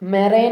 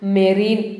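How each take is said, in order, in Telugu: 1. రెండవ అక్షరం 'ine' లా వినిపిస్తుంది. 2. రెండవ అక్షరం 'een' లా వినిపిస్తుంది.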